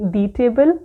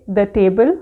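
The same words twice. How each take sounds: First: "the" said as "thee" before table. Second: "the" said as "thuh" before table; the with short uh. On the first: Teacher contrasting two ways of saying the, slow "thee". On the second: Teacher contrasting two ways of saying the, short "thuh". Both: Shown as a demonstration. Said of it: "मैंने ये particular word कैसे बोला है".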